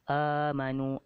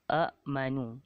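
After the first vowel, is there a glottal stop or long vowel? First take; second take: long vowel; glottal stop. First: The first vowel is held long, with no catch. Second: A glottal catch follows the short first vowel. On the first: "dibaca dengan dua harkat"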